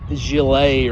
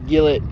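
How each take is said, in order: First: The name is said with a French pronunciation. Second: The name is said with a Texan pronunciation. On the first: The speaker calls it right. "It's like Gillet or something like that. ... I think it's a French French term" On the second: The speaker calls it wrong. "Gillette is not pronounced Gillette. ... That's my Texan coming out in me"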